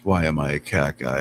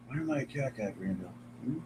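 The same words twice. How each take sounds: First: Said in the usual way. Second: Very soft murmured question to the cat. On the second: Real, not acted. Streamer murmurs the question to his cat, softly.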